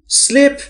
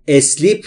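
First: The word starts directly with the s sound. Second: An extra e vowel comes before the s. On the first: The speaker calls it right. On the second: The speaker calls it wrong.

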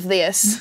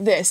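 First: It is said in a Southern American accent. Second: It is said in a neutral American accent. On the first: "instead of this" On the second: "a regular accent, just like this"

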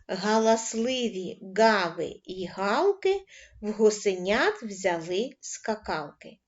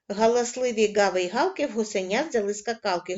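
First: The line is read at a slow pace. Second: The line is read at a fast pace. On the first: "працювати починаємо із повільного темпа" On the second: "кожен раз пришвидшуємо темп"

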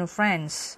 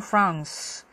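First: It is said with an American accent. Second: It is said with a British accent. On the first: "미국 발음은 France" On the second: "영국 발음은 France"

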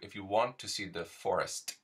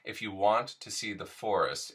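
First: The final T in 'forest' is hard and crisp. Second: The final T in 'forest' is soft.

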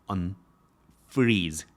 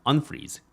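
First: The stress is on the second syllable. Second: The stress is on the first syllable. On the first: The speaker calls it right. "unfreeze 이 가운데 있어요" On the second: The speaker calls it wrong. "unfreeze 이게 아니라"

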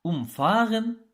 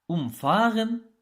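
First: The stress falls on the syllable after the prefix. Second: The stress falls on the syllable after the prefix.

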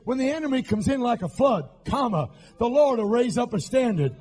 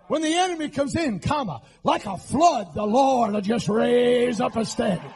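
First: The pause comes after "like a flood". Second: The pause comes right after "comes in".

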